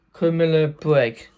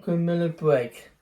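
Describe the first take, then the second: First: Criminal Break repeated louder and firmly. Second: Said in the usual way. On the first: Real, not acted. Vlogger repeats the game's name for viewers, louder.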